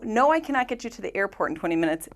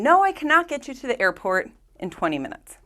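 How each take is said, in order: First: Said in the usual way. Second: A mild mock yell, a little higher and brighter; teacher hams up the driver's refusal; mock cab driver scream. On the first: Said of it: "is what the cab driver is saying". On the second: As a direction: read it like an irritated cabbie shouting back. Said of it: "the cab driver scream".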